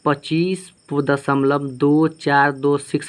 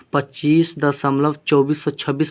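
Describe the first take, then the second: First: Slow, each of "दो चार दो six" separate; digit by digit. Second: Said in the usual way. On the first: Shown as a demonstration. Teacher demonstrating the correct decimal reading, slow and digit by digit. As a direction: stretch out "दो", "चार", "दो", "six" one by one. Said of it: "इसको हम ऐसे पढ़ेंगे". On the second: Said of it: "ऐसे नहीं पढ़ेंगे".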